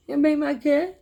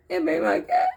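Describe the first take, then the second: First: Put-on high, louder whiny child plea; little niece. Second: Put-on very high, louder toddler whine; a toddler near tears, pleading; little niece. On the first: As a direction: whine it like a frustrated toddler. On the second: Child repeats plea again.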